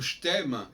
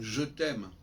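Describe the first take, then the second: First: The vowel of 'je' is dropped, words run together. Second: The vowel of 'je' is fully pronounced, words separate. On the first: The speaker calls it right. "en supprimant le E muet" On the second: The speaker calls it wrong. "et non pas"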